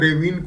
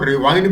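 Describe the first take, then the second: First: The second syllable sounds like 'vin'. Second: The second syllable sounds like 'vine'. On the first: The speaker calls it right. "Correct word इसका pronunciation रेविन है" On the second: The speaker calls it wrong. "कई लोग रेविन को रेवाइन भी बोल देते हैं"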